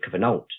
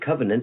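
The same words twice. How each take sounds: First: The word has an older, French-like pronunciation. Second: The word has its usual modern pronunciation. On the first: "pronouncing the words in a more historically correct way" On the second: "instead of saying covenant"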